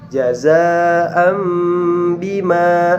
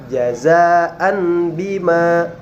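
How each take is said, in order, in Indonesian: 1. Bunyi m ada sebelum b. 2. Bunyi n biasa ada sebelum b. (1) "tetapi jazaa'am bima" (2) "Tidak dibaca jazaan bima"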